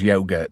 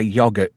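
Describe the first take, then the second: First: It is said with an American pronunciation. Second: It is said with a non-American pronunciation.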